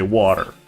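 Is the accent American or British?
American. It is said with an American accent.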